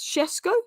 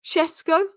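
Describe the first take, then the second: First: The name begins with an sh sound. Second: The name begins with an sh sound.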